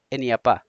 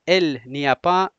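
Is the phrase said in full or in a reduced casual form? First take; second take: reduced; full. First: The syllables are run together and shortened. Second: Every syllable is said slowly and fully. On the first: This is how it is said in everyday speech. "ولی در عموم شما چه قسم میگویید؟" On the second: This is careful, slow speech. "اگر سلو سلو میگید"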